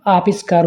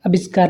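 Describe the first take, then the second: First: आविष्कार with a long first aa; correct long vowel. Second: आविष्कार with a short first a; wrong vowel length. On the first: Teacher corrects students, long first vowel. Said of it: "होता है". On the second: Teacher shows students the mistake, short first vowel. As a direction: open आविष्कार on a brief a. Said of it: "नहीं". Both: Shown as a demonstration.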